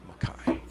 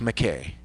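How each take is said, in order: First: The name is said in its Scottish pronunciation. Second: The name is said in its American pronunciation. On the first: "in Scotland it was Mackay" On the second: "the way an American changed it and pronounces it"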